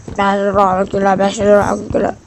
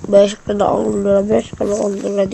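First: Loud hawker cry repeating prices; street vendor call. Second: Loud hawker calling prices; street vendor call. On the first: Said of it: "diye sesler gelebilir". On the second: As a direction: shout prices like a market seller. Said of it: "diye bağırıyor". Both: Retold or imitated.

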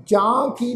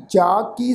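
First: ਜਾਂ with the long a through the nose; nasalised vowel. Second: ਜਾ with a pure oral long a; open, un-nasalised vowel in ਜਾ; no nasalisation. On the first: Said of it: "ਇਹਨੂੰ ਜਾਂ ਕੀ ਨਹੀਂ ਪਾਠ pronounce ਕਰਨਾ". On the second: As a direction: say ਜਾ ਕੀ as "jaa kee", nothing through the nose. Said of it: "ਨਾਸਕਤਾ ਤੋਂ ਬਿਨਾਂ ਪਾਠ ਉਚਾਰਨ". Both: Shown as a demonstration.

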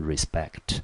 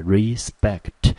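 First: Said in the usual way. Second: Slow "respect", weight on "spect"; stress on second syllable. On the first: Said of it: "念成respect". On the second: Shown as a demonstration. Teacher showing where the stress falls, slow syllable demo. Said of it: "重音节落在第二个音节".

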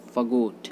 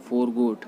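First: फॉरगॉट as 'fuh-GOT'; फॉरगॉट with a weak first syllable; correct pronunciation. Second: फॉरगॉट with the r sounded; फॉरगॉट with full 'for'; common mispronunciation. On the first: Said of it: "इसको बोलते हैं हम". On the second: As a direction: say फॉरगॉट as 'FOR-got'. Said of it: "जो कि गलत होता है". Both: Shown as a demonstration.

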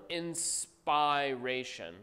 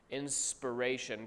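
First: "inspiration" slowly broken up as in-SPIRE-ation; root SPIRE stressed in "inspiration". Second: Said in the usual way. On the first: Shown as a demonstration. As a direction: stretch "inspiration" to show "spire" inside it. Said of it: "by that is spire". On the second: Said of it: "the term inspiration".

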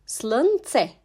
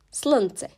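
First: "Slınce" said carefully as Slın-ce; syllable-by-syllable pronunciation. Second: Said in the usual way. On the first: Shown as a demonstration. Teacher modelling a Bulgarian word for learners, "Slınce" in careful syllables. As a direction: separate the two syllables of "Slınce". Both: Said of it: "gibi okunur".

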